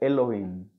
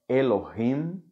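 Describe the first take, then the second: First: The h sound in the middle is silent. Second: The h sound in the middle is aspirated. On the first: This is how younger speakers say it today. "não aspira" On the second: This is the older, traditional pronunciation. "o pessoal mais antigo fala"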